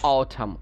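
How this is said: It is said with a British accent.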